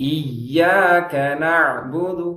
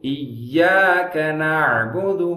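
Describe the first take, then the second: No difference in how they are said.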